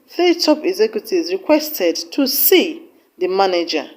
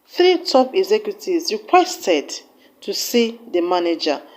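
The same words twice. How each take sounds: First: The word see carries the main stress. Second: The word requested carries the main stress. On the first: The listener misheard what the executives wanted to do with the manager. "with emphasis on the word see" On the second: The listener misheard what the executives asked for. "with emphasis on the word requested"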